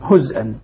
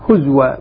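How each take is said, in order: First: A glottal stop follows the vowelless z. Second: A w sound follows the vowelless z. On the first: "إذن حمزة يسكن" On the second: "هزوى بالإسكان مع واو"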